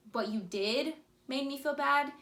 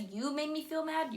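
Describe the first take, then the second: First: Calm ownership. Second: Blaming. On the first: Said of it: "But when you're saying". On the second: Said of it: "you're blaming him". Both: Shown as a demonstration.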